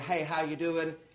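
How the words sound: It is tossed off casually while passing by.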